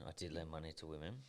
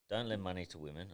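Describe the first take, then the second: First: Said in the usual way. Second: Quoting dad's rule. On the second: Retold or imitated. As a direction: lightly voice the father laying down the rule. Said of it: "Don't drink drive".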